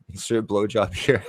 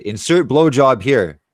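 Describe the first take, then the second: First: The title said again through a laugh; amused, laughing title; laughing repeat. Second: Loud, higher, slow announcer call; loud, drawn-out joke title; mock title announcement. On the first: Pretend. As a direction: crack up while saying it. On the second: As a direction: boom it out like a video title card. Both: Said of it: "that's what I'll title the video".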